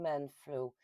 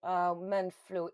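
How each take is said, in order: First: Said in the usual way. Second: Slow, with man flu drawn out and man stressed. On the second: Shown as a demonstration. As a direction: say man flu slowly and pointedly. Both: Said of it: "that is not a thing".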